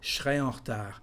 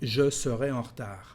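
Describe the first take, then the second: First: The subject and verb are fused together. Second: Every syllable of subject and verb is said. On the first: "it's the way you are going to hear French in France" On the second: "Instead of"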